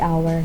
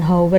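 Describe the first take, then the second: First: The initial h sound is silent. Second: The initial h sound is pronounced. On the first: The speaker calls it right. "tapi hour" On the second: The speaker calls it wrong. "bukan hour gitu"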